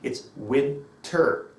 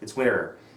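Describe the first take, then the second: First: Winter is said slowly and clearly with emphasis. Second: Winter is said quickly in a casual way. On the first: The listeners can hear the pronunciation clearly. The speaker calls it right. "I emphasize it like this" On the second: This is how it sounds among fluent speakers. The speaker calls it wrong. "rather than saying"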